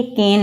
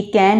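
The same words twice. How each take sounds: First: केन said with a closed 'e' vowel, as in cane; केन with a closed 'e', the correct form; corrected pronunciation. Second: कैन said with the open vowel of English can; कैन with an open 'ae' vowel, the form being corrected; wrong pronunciation. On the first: Teacher giving students the correct closed-vowel केन. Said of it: "ये कैन नहीं है". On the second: Teacher showing students the wrong way, open-vowel कैन. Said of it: "ये केन है". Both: Shown as a demonstration.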